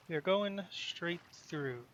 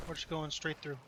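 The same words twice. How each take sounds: First: "We are going straight through" said slowly, each word set down firmly; slow, firm restatement. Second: Said in the usual way. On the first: Real, not acted.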